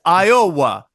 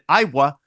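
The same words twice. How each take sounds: First: The O sound is full and stressed. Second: The O sound is reduced and unstressed. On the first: The team now has a real offense. "it's Iowa because they have an O" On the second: The team had no real offense before. "No longer is it Iowa"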